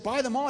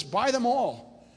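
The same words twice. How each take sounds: First: Higher-pitched echo of an order; retold taken-aback response, pitched up; startled echo. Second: Slow, raised, firm retold command; lightly voiced God giving orders; God's command. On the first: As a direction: throw the command back in mild disbelief. His startled echo of God's command. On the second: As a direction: stretch the words out as a divine order.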